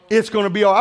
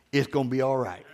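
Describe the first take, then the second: First: Said in the usual way. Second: Low and soft, almost to himself; a quiet reassuring murmur; soft reassurance. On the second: Retold or imitated. Preacher comforting himself after a broken printer, low and soft.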